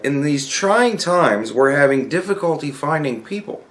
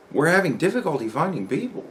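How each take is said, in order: First: Email read-out. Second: Softer, swooping questioning tune; incredulous echo. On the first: Reads out the company email. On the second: Coworker questioning the company email, incredulous echo. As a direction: echo it back as a doubtful question. Repeats email line in disbelief. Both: Retold or imitated.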